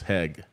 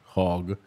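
First: The vowel sounds like the one in 'hag'. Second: The vowel sounds like the one in 'hog'. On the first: The speaker calls it right. "and now it's hag" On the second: The speaker calls it wrong. "my version of English used to be hog"

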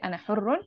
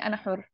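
First: The last word ends with an -un ending. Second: The last word ends without the -un ending. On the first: The speaker calls it wrong. "I won't say ana hurrun" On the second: The speaker calls it right. "I'll just say ana hur"

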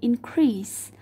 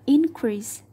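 First: The stress is on the second syllable. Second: The stress is on the first syllable. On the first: It is used as a verb. The speaker calls it wrong. "thay vì increase" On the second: It is used as a noun. The speaker calls it right. "ta đọc là increase"

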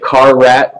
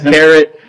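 First: It is said as two words, car rat. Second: It is said like the word carrot. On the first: The speaker calls it wrong. "Some may pronounce it Car Rat, but that is not the way to pronounce it" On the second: The speaker calls it right. "It is Carrot"

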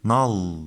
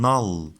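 Both takes have the same delivery.

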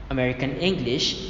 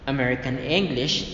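The two takes are said the same way.

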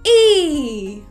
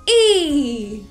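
The two takes are said the same way.

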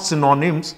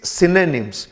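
First: The middle vowel sounds like a full 'o'. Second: The middle vowel sounds like a weak 'a'. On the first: The speaker calls it wrong. "It's not" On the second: The speaker calls it right. "This ओ is pronounced as ए"

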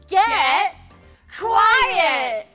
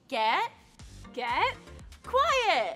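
First: It is said with more energy and force. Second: It is said with ordinary, calmer energy.

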